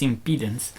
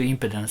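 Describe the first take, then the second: First: "impedance" stressed on a long-ee middle; supposedly correct pronunciation. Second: "impedance" with short, unstressed middle syllable; accustomed pronunciation. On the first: Presenter unsure which is right, "impedance" said im-PEE-dunce. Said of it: "I'm not sure which is". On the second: Presenter admitting old habit, "impedance" said IM-puh-dunce. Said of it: "I got used to". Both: Shown as a demonstration.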